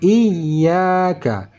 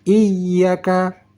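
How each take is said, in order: First: The vowel after the y is lengthened. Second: The vowel after the y is kept short. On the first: The speaker calls it right. "panjang sedikit karena alif mad" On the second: The speaker calls it wrong. "Jangan sampai"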